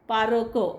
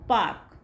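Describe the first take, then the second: First: The r is fully sounded, almost a separate syllable. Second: The r is barely sounded, very slight. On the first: The speaker calls it wrong. "असं नाही म्हणत" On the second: The speaker calls it right. "खूप slight केला जातो"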